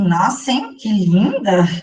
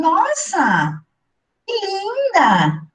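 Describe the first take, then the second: First: It sounds ironic and mocking. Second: It sounds like a sincere compliment.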